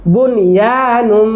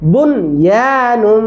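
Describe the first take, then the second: The two takes are said the same way.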